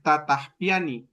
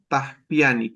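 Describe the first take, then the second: First: The opening syllable ta is said twice. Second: The opening syllable ta is said once. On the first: The speaker calls it wrong. "en lugar de decir tataspiani, que sonaba muy feo" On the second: The speaker calls it right. "Dejan esa doble ta como una sola"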